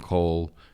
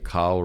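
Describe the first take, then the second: First: The vowel is a rounded 'oh' sound. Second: The vowel is an open 'ah' sound. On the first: The speaker calls it right. "rather than kol" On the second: The speaker calls it wrong. "if you say kal rather than kol"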